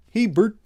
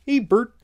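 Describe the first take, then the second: First: High puppet voice calling Bert; Ernie impression. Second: Higher, pushed Ernie puppet voice; better Ernie impression. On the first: Asked by the host to do Ernie, high puppet voice. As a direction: chirp it like Ernie from Sesame Street. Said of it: "do your best Ernie impression". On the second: Trying a better Ernie for the chat, higher puppet voice. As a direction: go fuller into Ernie's voice. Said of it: "let me try more impression of him".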